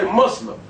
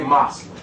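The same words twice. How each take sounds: First: Said in the usual way. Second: Moslem said with an ah vowel, MAHZ-lem; Moslem pronunciation. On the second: Retold or imitated. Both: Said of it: "you see how they pronounce their word".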